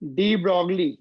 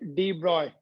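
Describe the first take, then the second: First: The surname is said with a 'g' sound. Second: The surname is said without a 'g' sound. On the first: This is the common local way of saying it. "But हम लोग डी ब्रॉगली ही बोलेंगे उसको" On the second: This is how it is said in France. "Pronounced as डी ब्रॉय, ये वाई है, जी साइलेंट है"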